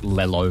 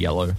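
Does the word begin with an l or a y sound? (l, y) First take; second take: l; y. First: The word begins with an l sound. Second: The word begins with a y sound. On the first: "as a really little kid, a lot of them say it like this" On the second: "instead of yellow"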